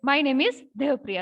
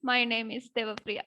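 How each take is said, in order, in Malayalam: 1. വളരെ ദേഷ്യമുള്ള ശബ്ദത്തിലാണ് ഇത് പറഞ്ഞിരിക്കുന്നത്. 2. വളരെ സങ്കടമുള്ള ശബ്ദത്തിലാണ് ഇത് പറഞ്ഞിരിക്കുന്നത്. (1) "ഭയങ്കര ദേഷ്യത്തോടെ പറയും" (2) "ഭയങ്കര സാഡ് ആയിട്ട് പറയണം"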